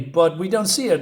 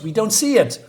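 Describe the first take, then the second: First: Said in the usual way. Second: "see" hit higher and louder, exasperated; exasperated stress on see. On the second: Shown as a demonstration. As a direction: push "see" hard, like you're fed up repeating it.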